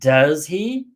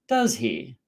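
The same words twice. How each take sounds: First: The pitch rises at the end. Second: The pitch falls at the end. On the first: The speaker is not sure and wants to know the answer. "my intonation goes up" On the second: The speaker is confirming information or making conversation. "If the intonation of the question tag goes down"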